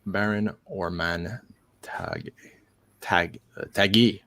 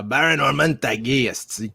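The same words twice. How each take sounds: First: Said in the usual way. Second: Louder, higher Québécois pronunciation; Quebec accent. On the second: Shown as a demonstration. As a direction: say the name like a Quebecker. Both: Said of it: "here in Quebec, we would say".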